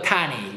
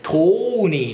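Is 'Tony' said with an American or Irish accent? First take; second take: American; Irish. First: The first vowel is an open 'ah' sound. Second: The first vowel is a long 'oh' sound. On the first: "アメリカ英語だとタニーですよ" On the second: "やっぱあれもねトーニーなんですよね"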